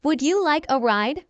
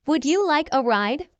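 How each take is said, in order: Both takes have the same delivery.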